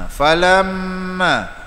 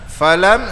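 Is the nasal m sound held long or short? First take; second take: long; short. First: The nasal m is held for two beats. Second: The nasal m is held for one beat. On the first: The speaker calls it right. "itu gunnah dua harakat" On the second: The speaker calls it wrong.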